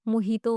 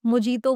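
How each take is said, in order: First: "मोहितो" with h in place of j; correct pronunciation. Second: "मोजीतो" with an English j sound; common mispronunciation. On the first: Teacher gives the right word, "मोहितो" with h sound. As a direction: say "मोहितो", breathing an h for the j. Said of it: "मोहितो होता है". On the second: Teacher quotes a common mistake, "मोजीतो" with j sound. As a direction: say "मोजीतो" with a hard j. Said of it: "मोजीतो बोलते हैं". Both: Shown as a demonstration.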